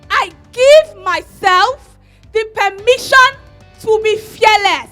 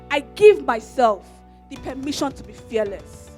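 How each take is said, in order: First: It is screamed loudly with passion and anger. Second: It is said out loud without anger.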